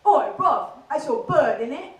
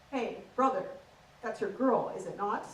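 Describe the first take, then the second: First: Loud, cocky Essex lad; puffed-up Essex accent, calling out. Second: Prim received pronunciation, measured; proper posh translation of Essex slang; posh English accent. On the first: Essex lad challenging his mate, in a loud Essex accent. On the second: Comic translating the Essex lad, in prim posh English. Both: Acted. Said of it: "average conversation goes a little bit like this".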